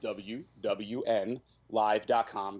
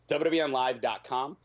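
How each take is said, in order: First: The phrase is said slowly. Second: The phrase is said quickly.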